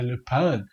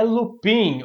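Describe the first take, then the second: First: "Lupin" said low and soft as loo-PAN; lower, softer French-style "Lupin"; attempted French pronunciation. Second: "Lupin" read as written, loo-PEEN; "Lupin" with an "ee" in the last syllable; spelled-out pronunciation. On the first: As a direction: try "Lupin" in French, nasal "an" ending, pitched down. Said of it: "porque eu não sei falar francês". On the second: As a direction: say "Lupin" the Portuguese spelling way, ending in "een". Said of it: "Eu não sei como é que pronuncia". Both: Shown as a demonstration.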